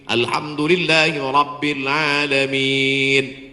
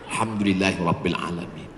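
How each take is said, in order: First: It is recited at a careful, measured pace. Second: It is rushed out quickly in one breath. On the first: The speaker calls it right. "Bacaan Fatihahnya betul" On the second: The speaker calls it wrong. "baca Fatihah satu napas putus. Macam bakwan panas"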